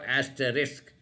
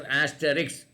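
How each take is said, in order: First: Asterisk ending in "-isk", S before K; corrected asterisk. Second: Asterisk with the end swapped to "-iks"; mistaken asterisk. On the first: Teacher passing on her correction, asterisk ending in a clear "-sk". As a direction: say asterisk as "as-tuh-risk". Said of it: "but she said it is called". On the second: Teacher admitting his old mistake, asterisk said as "asteriks". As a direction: say asterisk as "as-tuh-riks", K before S. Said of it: "I was also thinking it was". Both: Shown as a demonstration.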